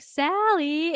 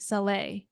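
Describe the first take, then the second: First: The name is said with an English-sounding pronunciation. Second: The name is said with its native pronunciation. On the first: The speaker calls it wrong. "the way that I even say it, I'm like, Sally, it's like this" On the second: The speaker calls it right. "the way that you pronounce your name, Sally, it's actually Saleh"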